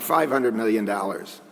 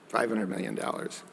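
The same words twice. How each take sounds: First: Said in the usual way. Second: Softer, dry repeat of the figure; murmured in wry disbelief; quiet ironic echo. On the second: Real, not acted. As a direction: let it sink in with a quiet repeat.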